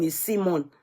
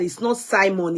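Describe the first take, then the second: First: "Simon" said with an ee, SEE-mon. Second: "Simon" said with a long i, SIGH-mon. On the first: Viewers correcting her on the name, "Simon" as SEE-mon. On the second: Viewers correcting her on the name, "Simon" as SIGH-mon. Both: Retold or imitated. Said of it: "it's not Simon, it's Simon".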